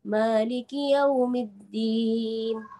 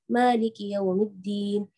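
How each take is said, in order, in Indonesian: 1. Dibacakan dengan tempo sedang. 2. Dibacakan dengan cepat. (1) "dia agak lebih cepat sedikit ya" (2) "yang paling cepat ini"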